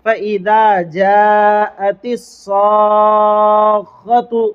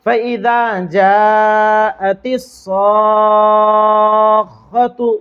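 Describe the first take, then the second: The two takes are said the same way.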